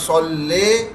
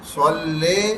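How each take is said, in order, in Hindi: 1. अंतिम स्वर लंबी 'ay' ध्वनि है। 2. अंतिम स्वर लंबी 'ay' ध्वनि है।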